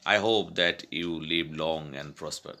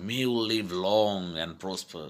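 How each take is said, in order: First: Said in the usual way. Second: "May you live long" lightly emphatic; emphasized wish. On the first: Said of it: "But it is very basic sentence". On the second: Shown as a demonstration. Teacher emphasizing the sentence, mild weight on "May you live long". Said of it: "to emphasize the sentence".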